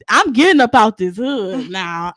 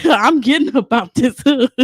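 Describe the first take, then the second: First: Determined vow. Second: Laughing. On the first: Retold or imitated. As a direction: lay it down slowly and firmly. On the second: Real, not acted. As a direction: laugh at your own vow as you say it. Repeating it, laughing.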